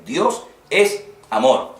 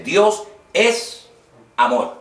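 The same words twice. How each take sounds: First: Slow, weighty Dios es amor, each word placed; slow, certain declaration; slow emphatic. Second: High punch on Dios, then amor lands firmly; emphatic quote. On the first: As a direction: spell out Dios es amor deliberately. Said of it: "es un versículo que está clarísimo". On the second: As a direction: hit the word Dios hard and high. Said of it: "lo hacía de una forma enfática". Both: Shown as a demonstration.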